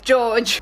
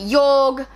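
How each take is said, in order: First: The name is said like 'George'. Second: The name is said like 'Jorg'. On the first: This is how the speaker chose to read the name. "for my sake I went with George" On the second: This is how many readers say the name. "a lot of people pronounce it Jorg"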